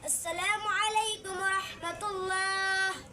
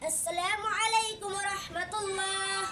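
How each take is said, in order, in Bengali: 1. এটি ধীর গতিতে বলা হয়েছে। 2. এটি মাঝারি গতিতে বলা হয়েছে। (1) "আস্তে আস্তে চালানো" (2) "মিডিয়াম"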